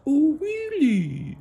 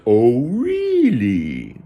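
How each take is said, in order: First: Very high, squeaky, slow frog; small, drawn-out cartoon falsetto; tiny-voiced frog. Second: Loud, high, very drawn-out frog reaction; hammed-up froggy wonder; amazed frog. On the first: Frog reacts to being prey. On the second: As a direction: stretch it way out in cartoon amazement.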